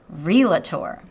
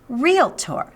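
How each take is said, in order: First: An extra vowel is heard between L and T. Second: No vowel is heard between L and T. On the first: The speaker calls it wrong. "not realtor" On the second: The speaker calls it right. "That's right"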